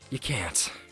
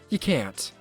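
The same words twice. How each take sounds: First: It is said in a breathy put-on voice. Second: It is said in a plain, unbreathy voice.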